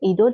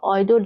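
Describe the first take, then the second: First: The name is said with a French pronunciation. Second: The name is said with an English pronunciation. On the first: "تلفظ فرانسویشه" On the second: "تلفظ انگلیسیشه"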